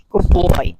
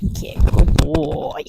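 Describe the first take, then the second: First: Said in the usual way. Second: Slow, whispered praise for the dog; soft praise. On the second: Real, not acted. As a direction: gently tell the dog he's good. Praising dog after retrieve.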